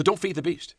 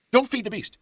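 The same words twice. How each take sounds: First: DON'T raised high, then falling on beast; preacher's measured caution on DON'T feed the beast; firm warning. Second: DON'T pitched very high and punched; high, forceful DON'T feed the beast; urgent repeated warning. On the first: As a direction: warn them with a high DON'T. Warning first stated to congregation. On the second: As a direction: cry out DON'T as an insistent warning. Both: Real, not acted.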